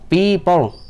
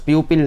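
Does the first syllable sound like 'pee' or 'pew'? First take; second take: pee; pew. First: The first syllable sounds like 'pee'. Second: The first syllable sounds like 'pew'. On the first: The speaker calls it right. "सही accent और correct pronunciation है" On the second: The speaker calls it wrong. "ये लफ्ज़ प्यूपिल नहीं होता है"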